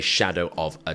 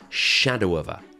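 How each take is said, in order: First: Each word is said separately and fully. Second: The words run together like one word. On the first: The speaker calls it wrong. "We don't say shadow of a doubt" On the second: The speaker calls it right. "We say shadow of a. Sounds like a new word that I'm inventing"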